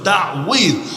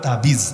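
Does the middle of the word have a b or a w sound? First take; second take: w; b. First: The middle has a w sound with a throat sound. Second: The middle consonant is a plain b sound. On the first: This is the original form of the word. "মূল উচ্চারণ হলো তাওয়িজ। তাওয়িজ আইন সহকারে" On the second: This is the everyday local form. "বাংলায় বলে তাবিজ"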